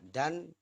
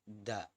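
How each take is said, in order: First: The word ends with an n sound. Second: The word ends on an open vowel. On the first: The word is read without stopping. "Jadi awalnya dan" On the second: The reader stops on this word. "karena dihentikan menjadi da"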